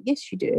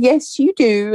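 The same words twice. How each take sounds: First: Much softer, said to herself; inner thought. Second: Said in the usual way. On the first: Retold or imitated. Thinking the reply to the daughter, hushed inner voice. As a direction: keep it inside, hushed and private. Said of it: "And I thought". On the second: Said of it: "And I said".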